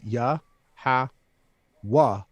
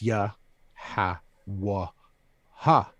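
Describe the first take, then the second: First: The name is said with three syllables. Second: The name is said with four syllables. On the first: This is the old way the name was said. The speaker calls it wrong. "is the way we used to say his name" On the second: This is the true form of the name. The speaker calls it right. "is the true pronunciation"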